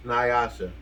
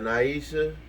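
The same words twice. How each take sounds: First: "Nyasha" as nigh-AH-sha; corrected name attempt. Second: "Naisha" as nah-EE-sha, tried out; unsure name attempt. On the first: Host correcting a birthday name to "Nyasha", nigh-AH-sha. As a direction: settle on "Nyasha" with a stressed AH. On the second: Host unsure of a birthday name, trying "Naisha" as nah-EE-sha. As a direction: try "Naisha" with an EE in the middle. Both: Real, not acted. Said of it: "How did I say that?".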